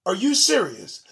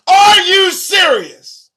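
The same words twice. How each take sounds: First: Said in the usual way. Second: Slow, much higher and louder are you serious; incredulous shout. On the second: Real, not acted. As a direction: throw up your hands in disbelief. Disbelief at a news story.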